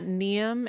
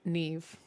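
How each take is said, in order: First: The name ends with an M sound. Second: The name ends with a V sound. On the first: The speaker calls it wrong. "not Neum" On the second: The speaker calls it right. "M H is usually a V sound"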